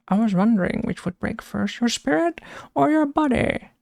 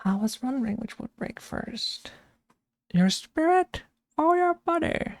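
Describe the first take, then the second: First: A casual first go at the Bane quote; lightly voiced Bane. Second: Much softer then leaping much higher on "your spirit or your body"; exaggerated Bane voice. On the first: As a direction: mostly own voice, jumping high on the last words. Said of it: "He has some good quotes". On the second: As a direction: ham up Bane's strange lilt. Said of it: "He has such a weird voice".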